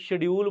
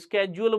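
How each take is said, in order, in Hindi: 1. यह शब्द 'sh' ध्वनि से शुरू होता है। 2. यह शब्द 'sk' ध्वनि से शुरू होता है। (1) "कोई शेड्यूल बोलता है" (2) "कोई स्केड्यूल बोलता है"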